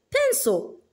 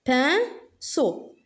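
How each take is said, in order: First: Said in the usual way. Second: "Pinceau" split into pin, ceau; rising "pin", pause, then "ceau" in "Pinceau"; syllable by syllable. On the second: Shown as a demonstration. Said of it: "la syllabe qui se répète". (« Pinceau » découpé en deux syllabes)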